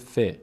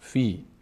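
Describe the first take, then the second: First: The word has only a short i vowel. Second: The word ends in a long i vowel. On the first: The word is joined to the next word. "فقط این کسره اینجا کار میکنه" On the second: The word is read on its own. "اگر به تنهایی خونده بشه میشه فی"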